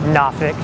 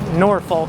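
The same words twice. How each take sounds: First: It is said the way other Virginians say it. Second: It is said the way out-of-state people say it. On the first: The speaker is from elsewhere in the state. "we call it Norfolk if we're not from Norfolk" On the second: The speaker is from outside the state. "people that are not from Virginia pronounce it Norfolk"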